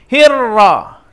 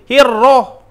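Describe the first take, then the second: First: The lips stay plain; the thickness is inside. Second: The lips are rounded and pushed forward. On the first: The speaker calls it right. "tapi biasa saja, ra, yang tebalnya di dalam" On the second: The speaker calls it wrong. "mulutnya tidak moncong gitu"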